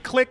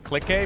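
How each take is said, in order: First: The word is said as one syllable. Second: The word is said with two syllables. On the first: "It's supposed to be click" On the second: "people pronounce it click A"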